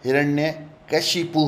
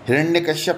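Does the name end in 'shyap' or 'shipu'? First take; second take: shipu; shyap. First: The name ends with the sounds 'shipu'. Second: The name ends with the sounds 'shyap'. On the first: The speaker calls it right. "हिरण्यकशिपु होगा" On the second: The speaker calls it wrong. "हिरण्यकश्यप नहीं होगा"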